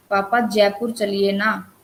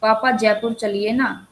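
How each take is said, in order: First: Slower request with जयपुर leaned on; stress on जयपुर. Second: Mildly coaxing request to papa. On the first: Teacher demonstrates Prashant's plea to papa, stress on जयपुर. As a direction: lean on the word जयपुर, drawing the request out. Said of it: "जयपुर पे यहाँ पे उसने जोर दिया है". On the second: Teacher voices a child asking papa for a trip, mild request. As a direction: plead lightly, as an example. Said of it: "अनुरोध". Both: Shown as a demonstration.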